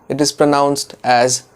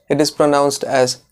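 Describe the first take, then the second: Both takes have the same delivery.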